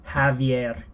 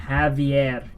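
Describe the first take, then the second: The two takes are said the same way.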